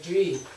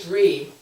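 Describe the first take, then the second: First: The R is pronounced very softly. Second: The R is pronounced strongly and clearly. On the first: The speaker calls it right. "The D R in Tibetan is like Dri" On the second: The speaker calls it wrong. "it's not like a Dri, it's like a very soft R"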